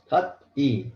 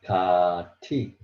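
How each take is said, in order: First: A t sound, then a separate e sound. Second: A t sound linked straight into the vowel. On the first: "Kat E is very hard to pronounce" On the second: "So it changed Kati. Still, it's very hard to pronounce"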